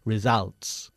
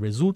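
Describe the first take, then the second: First: The second syllable has an 'a' vowel. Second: The second syllable does not have an 'a' vowel. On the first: The speaker calls it right. "pronunciamos la palabra results con una A" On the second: The speaker calls it wrong. "No se dice results"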